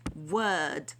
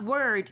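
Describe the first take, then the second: First: The R after the vowel is silent. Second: The R after the vowel is clearly sounded. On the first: The speaker calls it right. "drop your R's" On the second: The speaker calls it wrong. "So it's not word"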